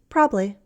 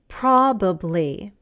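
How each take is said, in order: First: One syllable of the word is dropped. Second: Every syllable of the word is pronounced. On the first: "a shorter one" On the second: "a longer one"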